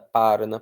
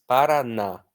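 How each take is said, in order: First: The stress falls before the last syllable. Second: The stress falls on the last syllable. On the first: The speaker calls it wrong. "eu não falo Parana" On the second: The speaker calls it right. "Eu falo com força na última"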